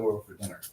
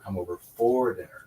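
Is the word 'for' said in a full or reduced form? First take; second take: reduced; full. First: The word 'for' is reduced and unstressed. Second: The word 'for' is full and stressed. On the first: "It's called a weak form" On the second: "unless they are being emphasized"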